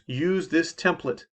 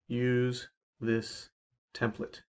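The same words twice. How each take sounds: First: It is said at a normal pace. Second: It is said more slowly.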